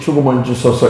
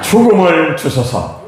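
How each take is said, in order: First: It is said flatly, without feeling. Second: It is said with earnest feeling.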